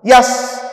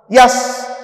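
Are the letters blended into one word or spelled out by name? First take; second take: blended; blended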